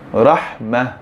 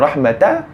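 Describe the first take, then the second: First: The word ends with a soft h sound. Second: The word ends with the syllable ta. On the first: The speaker calls it right. "Jadi kita membacanya dengan rahmah, bukan rahmata" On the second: The speaker calls it wrong. "adakah kita baca dengan rahmata?"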